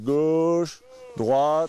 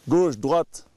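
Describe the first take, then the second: First: The words are said slowly and drawn out. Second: The words are said short and clipped. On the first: The skier should make a longer turn. "si on veut allonger le virage" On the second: The skier should turn sharply. "sec, ça veut dire qu'il tourne sec"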